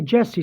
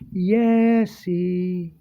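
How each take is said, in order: First: The name is said with a plain English accent. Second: The name is said with a Spanish accent. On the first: This is how the speaker's name is normally said. "She didn't say Jesse" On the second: The caller was a Spanish-speaking woman. "I knew it was a Spanish woman because because the way she would say my name"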